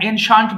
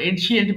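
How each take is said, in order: First: The ending sounds like 'shunt'. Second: The ending sounds like 'shee-ent'. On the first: The speaker calls it right. "এনশান্ট বলবো উচ্চারণ।" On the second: The speaker calls it wrong. "আমরা এনশিয়েন্ট বলি ভুল।"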